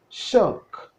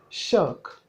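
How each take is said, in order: First: The word begins with an sh sound. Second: The same.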